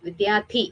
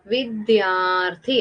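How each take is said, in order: First: വിദ്യാർത്ഥി with the R left out, as "vidyaathi"; missing R sound. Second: വിദ്യാർത്ഥി slowly in syllables, R sounded before "thi"; R sound pronounced. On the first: Teacher shows pupils the word before the R sign, വിദ്യാർത്ഥി without its R. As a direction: drop the R before the last syllable of വിദ്യാർത്ഥി. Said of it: "ഋ വന്നോ?". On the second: Teacher shows pupils where the R falls, വിദ്യാർത്ഥി slowly with R before "thi". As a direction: stretch out വിദ്യാർത്ഥി with a clear R before the last syllable. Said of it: "ഋ എന്ന് pronounce". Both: Shown as a demonstration.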